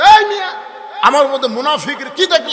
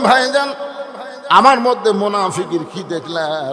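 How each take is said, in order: First: It is said in a hot, angry tone. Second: It is said in a soft, gentle tone.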